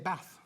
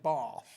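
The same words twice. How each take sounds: First: Bath is said in a Yorkshire accent. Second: Bath is said in a southern accent.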